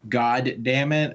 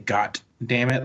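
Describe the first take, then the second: First: The first word ends with a D sound. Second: The first word ends with a T sound.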